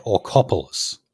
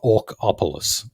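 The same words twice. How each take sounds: First: "Orcopolis" run together as or-COP-olis; "Orcopolis" as one smooth name; corrected pronunciation. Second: "Orcopolis" split into ORC and OPOLIS; "Orcopolis" said as Orc, then opolis; rejected pronunciation. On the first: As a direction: say "Orcopolis" as one word, Greek-style. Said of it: "that is the pronunciation". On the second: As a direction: break "Orcopolis" after Orc, as two words. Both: Shown as a demonstration.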